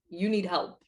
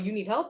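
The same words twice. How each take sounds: First: It sounds like a cold, dismissive put-down. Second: It sounds like a caring, concerned check-in. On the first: The person is belittling you. "That's not the same as" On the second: The person is genuinely checking on you. "if somebody comes up to me like, yo"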